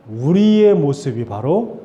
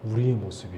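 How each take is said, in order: First: "우리의" stretched slowly with a rising tune; drawn-out "우리의" that lifts at the end; slow emphasis. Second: "우리의 모습이" said much softer and lower, falling; a low, quiet echo of "우리의"; soft repeat. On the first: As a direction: lean slowly on "우리의 모습이". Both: Shown as a demonstration.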